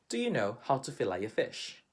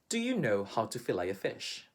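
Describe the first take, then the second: Both takes have the same delivery.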